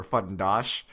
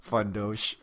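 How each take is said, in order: First: Fundosh with an open "ah", "fun-DAHSH"; short open A in Fundosh. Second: Fundosh with a long O, "fun-DOHSH". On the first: Host correcting a listener's name, Fundosh with open "ah". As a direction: say Fundosh with "ah" in the last syllable. Second try at the same name. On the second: Host trying a listener's name, Fundosh with long O. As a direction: say Fundosh with "oh" in the last syllable. Reader tries two pronunciations of name. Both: Shown as a demonstration.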